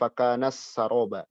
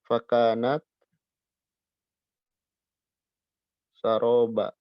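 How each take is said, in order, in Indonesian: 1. t melebur ke bunyi s yang mengikutinya. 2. t terdengar jelas sebelum kata berikutnya. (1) "Jangan fakanas saroba" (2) "taknya bunyi"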